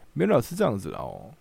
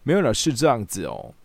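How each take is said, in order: First: The words are slurred with the tongue held sideways. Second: The words are articulated crisply and clearly. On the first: It sounds like the imitated person. The speaker calls it right. "然后有一点舌头放旁边" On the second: It does not sound like the imitated person. The speaker calls it wrong. "因为他不会咬字发音变清楚，就是没有了是这样子哦，那就听起来不像了"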